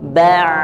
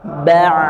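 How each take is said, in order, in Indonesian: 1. Bunyinya mengalir lancar dari tenggorokan. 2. Bunyinya mengalir lancar dari tenggorokan.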